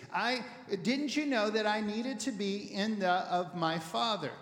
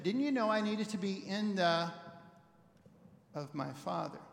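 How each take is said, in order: First: Said in the usual way. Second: A slower, deliberate read; slow it down a little, let the gap land; same line taken more slowly. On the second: Shown as a demonstration. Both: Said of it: "Slow it down just a little bit".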